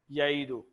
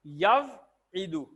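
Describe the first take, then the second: First: یعیدو said short, no waw, as ya-i-du; waw dropped. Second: یوعدو drawn out slowly, waw sounded, as yaw-i-du; slow textbook form یوعدو; full form with waw. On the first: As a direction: clip یعیدو, drop the waw. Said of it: "واو کو نکال دیا". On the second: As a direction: stretch یوعدو and keep the waw. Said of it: "وعدہ". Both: Shown as a demonstration.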